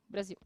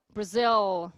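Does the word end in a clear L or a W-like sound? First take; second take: W-like sound; L sound. First: The final L sounds like a short U glide. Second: The final L is a full L sound. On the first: "em português, a gente faz uma semivogal... com som de U" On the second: "Aqui a gente vai falar Brasil, L"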